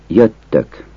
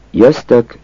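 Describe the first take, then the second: First: Jöttök with a long double t; jöttök with tt as written; standard jöttök. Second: Jöztök with a z before the t; folksy jöztök with z; colloquial jöztök. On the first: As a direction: say jöttök with a held tt. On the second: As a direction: say jöztök as a z-t blend. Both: Shown as a demonstration. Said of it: "Azt a kiejtés változatot".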